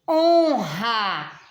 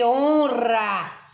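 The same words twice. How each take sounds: First: The R is a strong throaty sound. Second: The R is a light tapped sound. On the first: The speaker calls it right. "esse re aqui é forte ou fraco? Forte" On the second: The speaker calls it wrong. "Eu não posso dizer aqui honra"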